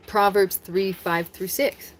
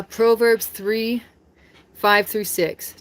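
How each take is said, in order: First: Said in the usual way. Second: Each number spaced out slowly; slow, deliberate verse citation. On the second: Shown as a demonstration. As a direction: announce the verse slowly and clearly. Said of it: "just gonna read the Bible quotes".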